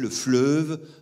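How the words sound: It is said with a Lyon regional pronunciation. This is how it is said in the speaker's home region. "Je suis né à Lyon, jusqu'à l'âge de dix-neuf ans, j'ai vécu à Lyon et je disais"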